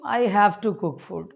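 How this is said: It sounds reluctant, as if forced to do it.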